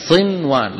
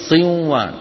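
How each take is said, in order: First: صنوان with the n sounded plainly before the w; n kept clear. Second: صنوان said siwwan, with the n swallowed into the w; n merged into w. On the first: Teacher showing the correct form with the n kept. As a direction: pronounce صنوان as sin-wan, keeping the n. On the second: Teacher showing the forbidden merged form. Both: Shown as a demonstration. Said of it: "لا يصح أن نقول".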